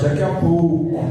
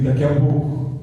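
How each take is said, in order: First: It is said louder and stronger. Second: It is said at normal loudness.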